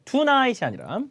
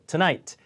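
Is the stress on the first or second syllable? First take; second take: first; second. First: The stress is on the first syllable. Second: The stress is on the second syllable. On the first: The speaker calls it wrong. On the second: The speaker calls it right. "뒤에 강세 주셔야 돼요"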